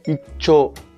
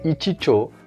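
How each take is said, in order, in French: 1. Il se prononce avec 'ichi' raccourci avant 'cho'. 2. Il se prononce avec un 'ichi' complet avant 'cho'. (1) "mais on dit icho" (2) "on dit pas ichicho"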